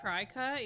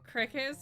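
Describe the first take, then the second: First: The first syllable sounds like 'cry'. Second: The first syllable sounds like 'crick'. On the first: The speaker calls it wrong. "that word isn't pronounced cry cut? It is not" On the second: The speaker calls it right. "Not Cricut as in Jiminy Cricket?"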